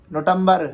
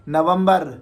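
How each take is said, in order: Both takes have the same delivery.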